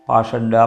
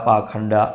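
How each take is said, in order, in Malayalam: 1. നടുവിലെ വ്യഞ്ജനം 'sh' ശബ്ദമാണ്. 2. നടുവിലെ വ്യഞ്ജനം 'kh' ശബ്ദമാണ്. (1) "പാഷണ്ഡ പാഖണ്ഡ എന്നുള്ള വ്യത്യാസം" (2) "പാഖണ്ഡ എന്നും ഒരു ഉച്ചാരണ ഭേദം ഉണ്ട്"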